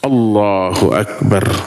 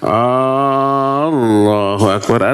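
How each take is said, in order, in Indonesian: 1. Vokal pembuka tetap diucapkan pendek. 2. Vokal pembuka diucapkan panjang. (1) "A-nya harus wajib pendek" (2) "Banyak imam yang A-nya panjang"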